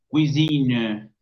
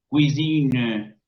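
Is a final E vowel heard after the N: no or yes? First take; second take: yes; yes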